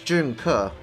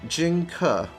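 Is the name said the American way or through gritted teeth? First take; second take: American; gritted teeth. First: It is said with an American pronunciation. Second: It is said tightly through gritted teeth. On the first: "I can Americanize it" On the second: "you gotta say it with like gritted teeth"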